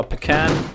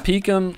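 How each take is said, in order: First: Pecan as puh-KAN; puh-KAN pronunciation. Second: Pecan as PEE-kun, stress up front; PEE-kun pronunciation. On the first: Caster trying another way of the name, Pecan said puh-KAN. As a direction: say Pecan with a weak first syllable, then KAN. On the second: Caster unsure of a player's name, Pecan said PEE-kun. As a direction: say Pecan with a long ee first, weak ending. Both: Shown as a demonstration. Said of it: "I don't know".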